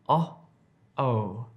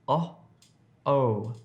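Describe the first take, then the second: The two takes are said the same way.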